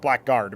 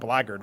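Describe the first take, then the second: First: The word is said just as it is spelled. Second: The word is said unlike its spelling. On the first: The speaker calls it wrong. "that's how you would pronounce it, and that's how you would write that word" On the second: The speaker calls it right. "it's pronounced blackguard, which I never really understood"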